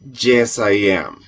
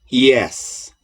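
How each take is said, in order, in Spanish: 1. La 'y' suena fuerte, como la doble L en español. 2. La 'y' suena suave, como la vocal 'ee'. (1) "no deberíamos de decir yes I am. Ese yes viene de nuestro pensar en español que la Y suena como una doble L" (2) "La Y en inglés, insisto, suena igual que la I"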